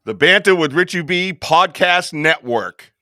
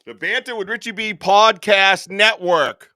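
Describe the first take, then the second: First: Announcer reveal. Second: Announcer reveal again. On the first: Grand announcement of network. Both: Acted.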